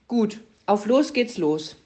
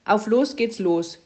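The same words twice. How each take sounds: First: Luzi drawls the command "los" slowly and clearly; slow announcing. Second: "Auf los geht's los" called slowly, a bit louder. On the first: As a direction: spell out "auf los geht's los" slowly. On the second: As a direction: call the command out to Puh. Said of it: "rief Luzi". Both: Acted.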